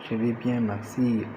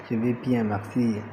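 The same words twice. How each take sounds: The two takes are said the same way.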